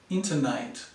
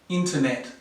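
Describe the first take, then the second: First: The last vowel is a long ay sound. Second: The last vowel is a short e sound. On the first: The speaker calls it wrong. "It sounds like a and I together" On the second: The speaker calls it right. "This E sound here is the short vowel sound"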